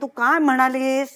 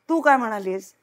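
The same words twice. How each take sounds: First: The last word carries the main stress. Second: The first word carries the main stress. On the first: "हाही वेगळा अर्थ होतो" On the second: "प्रत्येक शब्दावर जोर देऊन बघा"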